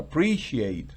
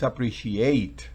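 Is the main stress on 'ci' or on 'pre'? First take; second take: pre; ci. First: The stress falls two syllables before 'ate'. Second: The stress falls on the syllable just before 'ate'. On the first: The speaker calls it right. "sino appreciate" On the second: The speaker calls it wrong. "no es appreciate"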